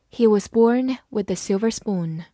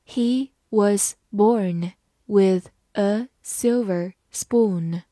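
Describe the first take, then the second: First: Said in the usual way. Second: Slow, isolated words for learners; slow reading. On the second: Shown as a demonstration. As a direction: say each word separately, with pauses. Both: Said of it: "慢慢来读".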